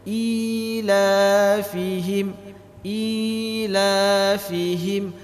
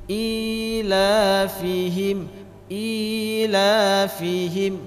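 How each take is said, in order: No difference in how they are said.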